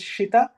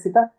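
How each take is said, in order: First: The word begins with a sh sound. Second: The word begins with an s sound. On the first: The speaker calls it right. "This is shita" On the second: The speaker calls it wrong. "Don't say sita"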